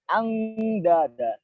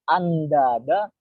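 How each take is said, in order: First: The nasal is a clear ng sound. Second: The nasal is a clear n sound. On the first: "bukan juga angdada" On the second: "Bukan dibaca andada"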